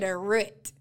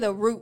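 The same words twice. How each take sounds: First: The word is said the Southern Texas way. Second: The word is said in a general, non-Southern way. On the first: "I'm from, you know, the southern part of Texas. ... we say the root" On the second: "we don't say the root"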